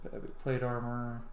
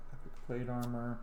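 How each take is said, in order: Both takes have the same delivery.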